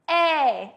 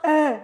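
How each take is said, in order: First: The vowel is said with the mouth slightly open. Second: The vowel is said with the mouth very open. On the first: The speaker calls it right. "No, a little" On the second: The speaker calls it wrong. "Not too much, and not eh"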